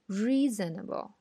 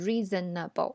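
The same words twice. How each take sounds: First: The stressed first syllable is longer than others. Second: All syllables are given roughly equal length. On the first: The speaker calls it right. "而是reasonable，re 在重音上，所以它会长一点" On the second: The speaker calls it wrong. "所以不是reasonable"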